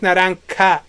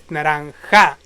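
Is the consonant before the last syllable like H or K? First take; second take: K; H. First: The last syllable starts with a hard k sound. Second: The last syllable starts with a breathy h sound. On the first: The speaker calls it wrong. "It's not like ka" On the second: The speaker calls it right. "it's ha"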